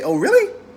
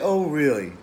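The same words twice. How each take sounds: First: It sounds excited and upbeat. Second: It sounds down and deflated.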